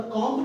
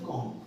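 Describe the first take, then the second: First: कॉम्ब ending in an audible b; final b sounded. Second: कॉम्ब said "kom", closing on m; silent b. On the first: Teacher rejecting the common mispronunciation, final b sounded. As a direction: voice the b at the end of कॉम्ब. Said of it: "कॉम्ब नहीं बोलते". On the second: Teacher correcting the students' pronunciation, silent b. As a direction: drop the final b of कॉम्ब. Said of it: "उसको बोलते हैं कॉम्ब". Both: Shown as a demonstration.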